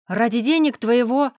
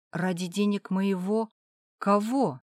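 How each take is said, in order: First: Higher, much louder cry stressing денег; blurted outburst. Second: Insinuating ask. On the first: Father lets the secret slip, loud outburst. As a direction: blurt it out, then stop short. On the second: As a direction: ease the question out gently. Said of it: "спросила вкратчиво". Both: Acted.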